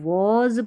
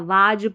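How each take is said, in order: First: It has a rounded o vowel and final z. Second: It has an open aa vowel and final z. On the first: The speaker calls it right. "इसको वॉज पढ़ना है" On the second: The speaker calls it wrong. "वाज पढ़ देते हैं ... जो बिल्कुल गलत है"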